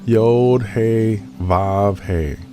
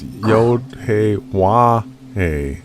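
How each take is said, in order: First: The third letter name starts with a V sound. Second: The third letter name starts with a W sound. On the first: "Yiddish, you'll hear people say" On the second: "so it's"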